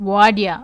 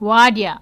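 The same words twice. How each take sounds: The two takes are said the same way.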